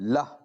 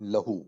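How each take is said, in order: First: The final vowel is dropped, ending on a consonant. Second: The word ends with a final vowel sound. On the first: The reader stops at this word. "हमें रुकना है यहाँ तो हम क्या करेंगे लह" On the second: The reader continues without stopping. "एक लफ्ज है लहू"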